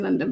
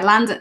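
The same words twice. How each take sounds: First: Said in the usual way. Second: London in a local accent, open first vowel like "Lan-dun"; London accent on London, broad first vowel. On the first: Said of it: "If they say, like". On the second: Shown as a demonstration. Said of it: "If they say, like, London".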